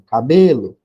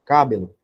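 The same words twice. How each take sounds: First: "cabelo" with a loud, stretched "BÊ"; stress on middle syllable. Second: "Cabelo" stressed wrongly on "Ca"; misplaced stress. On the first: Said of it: "Vou botar assim". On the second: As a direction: say CÁ-be-lo, weight on the first syllable of "Cabelo". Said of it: "Então, não tá certo". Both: Shown as a demonstration.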